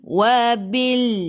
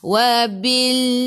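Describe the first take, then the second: Both takes have the same delivery.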